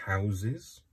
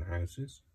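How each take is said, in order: First: "houses" with a buzzed middle, HOW-ziz; "houses" as HOW-ziz, lilting up at the end; pronounced with Z sounds. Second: "houses" with a hissed s in the middle, HOW-siz; "houses" as HOW-siz, ending on a questioning rise; pronounced with S sound. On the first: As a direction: say "houses" with a voiced z inside. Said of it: "the plural of house is". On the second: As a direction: say "houses" with an unvoiced s inside. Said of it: "rather than houses". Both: Shown as a demonstration.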